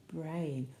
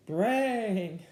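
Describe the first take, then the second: First: Said in the usual way. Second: The word brayed out, drawn and falling; zebra-like bray. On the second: Shown as a demonstration. Reader trying a zebra sound for children, braying it. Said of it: "let's try and do a zebra sound".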